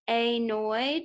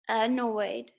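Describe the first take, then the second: First: The first vowel is a long 'ay' sound. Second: The first vowel is a short 'uh' sound. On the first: The speaker calls it wrong. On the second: The speaker calls it right.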